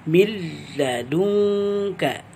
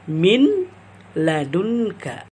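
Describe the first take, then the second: First: The n merges into a short, unnasalized l. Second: The n is pronounced separately before the l. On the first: The speaker calls it right. "tanpa panjang, tanpa digunnahkan atau dengan tanpa sengau" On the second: The speaker calls it wrong. "memisahkan ... mengizharkan bacaan nun dan bacaan lam"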